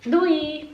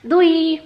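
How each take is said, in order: First: Said in the usual way. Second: Doei sung out high and loud, rising oo-ee; a bright, high, loud Dutch goodbye; high excited doei. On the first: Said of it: "And how do we write that?". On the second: Shown as a demonstration. Teacher copies how the Dutch say doei: high, loud, excited. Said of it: "let's just say it the same way to them".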